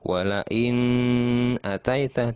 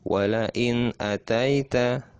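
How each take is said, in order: First: The n is held long with a nasal hum. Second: The n is short and clear, with no hum. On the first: The speaker calls it wrong. "tidak seperti itu. Nah, itu salah" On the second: The speaker calls it right. "langsung. Tidak ditahan atau tidak dengung, tidak lama"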